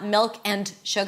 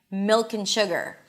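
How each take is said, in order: First: Each word is said separately with a full and. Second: The words run together with a reduced un. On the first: The speaker calls it wrong. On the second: The speaker calls it right.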